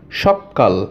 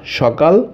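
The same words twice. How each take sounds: First: সকাল said as সক্কাল with a long held ক; lower, doubling the ক in সকাল; doubled consonant. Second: Said in the usual way. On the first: Shown as a demonstration. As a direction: hold the ক in সকাল so it sounds like সক্কাল. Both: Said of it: "দুইবার উচ্চারিত হচ্ছে".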